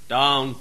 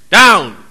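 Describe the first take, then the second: First: Said in the usual way. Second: "Down." barked firm and louder; "Down." as a sharp loud order; firm command. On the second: Shown as a demonstration. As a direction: snap "Down." at the dog. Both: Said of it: "Animals operate by tones".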